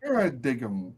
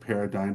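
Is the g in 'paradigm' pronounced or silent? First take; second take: pronounced; silent. First: The g sound is pronounced. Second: The g sound is silent.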